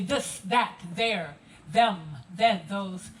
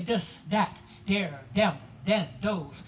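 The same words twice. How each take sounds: First: Crisp TH at the start of this, that, there, them, then, those; proper enunciation. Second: TH hardened to D in this, that, there, them, then, those; Gullah pronunciation. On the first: Guide showing visitors standard TH sounds, proper enunciation. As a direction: enunciate each TH with the tongue at the teeth. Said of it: "When you enunciate, you do so properly". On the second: Guide showing how Gullah speakers talk, Gullah D sounds. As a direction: swap each opening TH for a D sound. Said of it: "In Gullah, you hear us say". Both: Shown as a demonstration.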